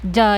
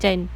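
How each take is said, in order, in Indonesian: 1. Suku kata itu berakhir dengan vokal terbuka. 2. Suku kata itu berakhir dengan bunyi n. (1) "Ja ya" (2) "bukan jan"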